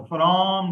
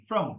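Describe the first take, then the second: First: Said in the usual way. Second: From said weak, short schwa; reduced from. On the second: Shown as a demonstration. Teacher shows the weak form of from to students. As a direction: swallow the vowel in From. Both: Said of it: "from को मैंने reduce कर दिया".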